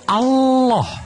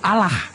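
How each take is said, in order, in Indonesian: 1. Bunyi L ditahan panjang, dobel. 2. Bunyi L pendek, cukup satu L. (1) "Sama kalau double L itu Allah" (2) "L-nya satu"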